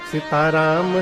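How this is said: It is said with loving devotion.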